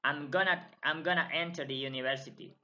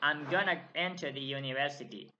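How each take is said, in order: First: 'Going to' is reduced to 'gonna'. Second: 'Going to' is reduced to 'gonna'.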